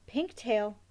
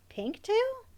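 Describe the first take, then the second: First: Said in the usual way. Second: High, rising double take on TAIL; startled question. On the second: A narrator's reading. Emmy suddenly spots a rat's tail, startled question. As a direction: echo it in high disbelief, lifting on TAIL.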